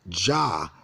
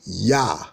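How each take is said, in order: First: The name begins with a J sound. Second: The name begins with a Y sound. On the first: The speaker calls it wrong. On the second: The speaker calls it right.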